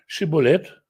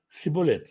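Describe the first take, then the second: First: The word begins with an 'sh' sound. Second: The word begins with an 's' sound. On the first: The speaker calls it right. "скажи «шиболет»" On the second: The speaker calls it wrong. "он не мог сказать правильно слово «шиболет»"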